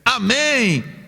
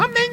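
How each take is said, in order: First: It is said strongly, with joy and vigor. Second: It is said weakly, like a small chick.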